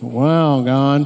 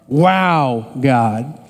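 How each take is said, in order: First: It is said in a sarcastic tone. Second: It is said in a genuinely amazed tone.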